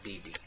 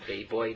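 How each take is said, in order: First: The vowels sound like 'ee' and 'ee'. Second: The vowels sound like 'ay' and 'oy'. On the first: The speaker calls it wrong. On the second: The speaker calls it right. "that's the way to pronounce this word"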